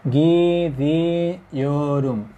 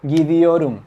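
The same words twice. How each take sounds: First: Slowly drawn out. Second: Said in the usual way. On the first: Shown as a demonstration. Teacher spelling out gidiorum slowly for the class. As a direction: stretch gidiorum very slowly, syllable by syllable. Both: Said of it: "¿Se fijan?".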